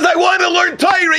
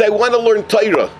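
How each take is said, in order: First: High-pitched, impassioned insistence; insistent plea. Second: Said in the usual way. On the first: Acted. Son insists to his father after being refused, high impassioned plea. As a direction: plead it high, refusing to give up.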